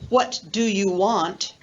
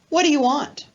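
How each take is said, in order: First: Each word is said separately and fully. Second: The words are blended and linked together smoothly. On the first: The speaker calls it wrong. "we don't pronounce it like that" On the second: The speaker calls it right. "That's an example of blending and linking"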